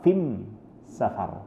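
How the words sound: The word before safar is pronounced fim. It is the Himyar dialect of Yemen.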